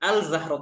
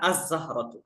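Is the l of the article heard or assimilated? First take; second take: heard; assimilated. First: The l sound is pronounced before the z. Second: The l merges into a doubled z sound. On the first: The speaker calls it wrong. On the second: The speaker calls it right.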